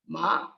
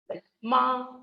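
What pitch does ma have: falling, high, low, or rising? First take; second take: rising; high. First: The pitch goes up through the word. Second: The pitch stays high and level. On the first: "And the rising tone" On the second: "this is the high level tone"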